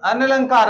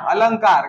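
First: "अनलंकार" with an extra "an" syllable, a-na-lan-kaar; wrong pronunciation. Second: "अलंकार" as a-lan-kaar, falling; correct pronunciation. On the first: Teacher shows students the misread "अनलंकार", extra syllable sounded. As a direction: say "अनलंकार" split as an-a-lankaar. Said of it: "तो ये क्या है गलत हो गया". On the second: Teacher gives students the corrected "अलंकार", three syllables, a-lan-kaar. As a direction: say "अलंकार" with the nasal straight after la. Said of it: "तो यहाँ पर क्या आएगा इसका सही". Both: Shown as a demonstration.

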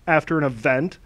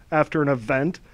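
No difference in how they are said.

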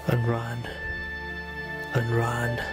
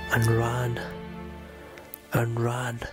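No difference in how they are said.

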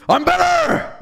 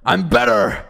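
First: Very high, loud scream; over-the-top screeching brag; screamed mock boast. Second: Loud, rough bellow at normal pitch; mock boast shout. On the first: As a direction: shriek it with comic arrogance. Repeats the boast even harder. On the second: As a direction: roar it with comic arrogance. Mock boast shouted after closing door.

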